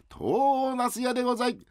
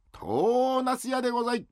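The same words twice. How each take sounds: First: Vendor's call again. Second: Vendor's call. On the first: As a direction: call it out once more for uncle. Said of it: "もう一回やって". (高く伸ばした売り声) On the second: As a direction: sing out like a peddler. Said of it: "あ、うめえな。". (行商人の呼び声) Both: Acted.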